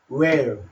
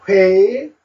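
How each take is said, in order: First: The word starts with a w sound. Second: The word starts with an h sound. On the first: This is the modern pronunciation. "보통 이제 근대에 와서 많이 요 발음을 하고 있고" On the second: This is the older pronunciation. "그 전에는 옛날에는 회일이라고 했습니다"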